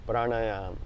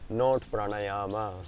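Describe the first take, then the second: First: The word ends without a final vowel. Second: The word ends with a final a vowel. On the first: The speaker calls it right. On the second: The speaker calls it wrong.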